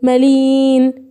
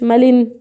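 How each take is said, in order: First: The i vowel is long and drawn out. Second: The i vowel is short, not drawn out. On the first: The speaker calls it right. "بنطقه ممدود" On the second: The speaker calls it wrong. "ما قلتش مالين"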